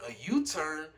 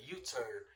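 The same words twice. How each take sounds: First: U-TURN pitched up and louder as a question; re-enacted surprised question on U-TURN; incredulous echo. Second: Said in the usual way. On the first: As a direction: throw U-TURN back in disbelief. Echoes it back in disbelief.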